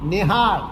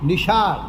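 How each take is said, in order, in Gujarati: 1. વચ્ચેનો વ્યંજન અઘોષ h અવાજ છે. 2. વચ્ચેનો વ્યંજન sh અવાજ છે.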